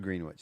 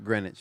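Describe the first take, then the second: First: The w is sounded, said like green witch. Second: The w is silent, said like Grenich. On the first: This follows the spelling. "but it's spelled Greenwich" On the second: This is how people usually say it. "I always hear it pronounced Greenwich Village"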